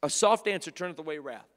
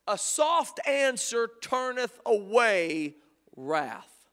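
First: Said in the usual way. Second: Each word drawn out, a falling close on wrath; slow, weighty verse reading; slow scripture line. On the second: Shown as a demonstration. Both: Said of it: "There are three ways that this works".

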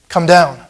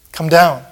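The two takes are said the same way.

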